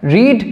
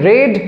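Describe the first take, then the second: First: The vowel sounds like in 'reed'. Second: The vowel sounds like in 'red'. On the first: It is the present form of the verb. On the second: It is the third form of the verb.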